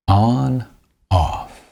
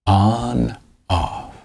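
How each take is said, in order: Both takes have the same delivery.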